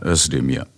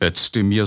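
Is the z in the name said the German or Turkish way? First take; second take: Turkish; German. First: The z is pronounced the Turkish way. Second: The z is pronounced the German way. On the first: The speaker calls it right. "so wird Z im Türkischen innerhalb eines Wortes immer ausgesprochen" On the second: The speaker calls it wrong. "Er heißt eben nicht Özdemir"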